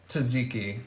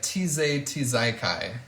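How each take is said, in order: First: The word is pronounced in the standard way. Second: The word is pronounced in a silly, distorted way. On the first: The speaker calls it right. "I know how to say tzatziki" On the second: The speaker calls it wrong. "I mispronounce words because it's funny"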